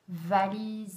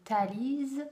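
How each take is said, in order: First: The word begins with a v sound. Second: The word begins with a t sound. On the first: The speaker calls it right. "au lieu de dire" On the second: The speaker calls it wrong. "le transforme en T"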